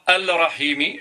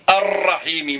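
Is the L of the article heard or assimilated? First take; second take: heard; assimilated. First: The L of the article is clearly pronounced. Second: The L merges into a doubled R sound. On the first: The speaker calls it wrong. "je dis pas al-Rahimi" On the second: The speaker calls it right. "je dis ar-Rahimi"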